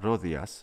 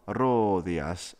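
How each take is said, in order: First: The O vowel is held only briefly. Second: The O vowel is held for an extra-long time. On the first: "It's not Rodias" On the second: "Don't make it overlong"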